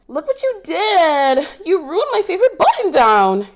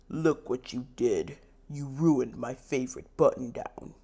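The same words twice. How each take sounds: First: It is said in a whining, childish voice. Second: It is said in a plain, unwhining voice.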